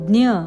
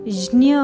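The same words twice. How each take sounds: First: It begins with a d sound before the nasal. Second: It begins with a j sound before the nasal. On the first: This is the Marathi pronunciation. "मराठीत ज्ञ" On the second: This is the Sanskrit pronunciation. "संस्कृतमध्ये ज्ञ म्हणतात"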